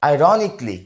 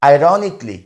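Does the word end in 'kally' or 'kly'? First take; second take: kly; kly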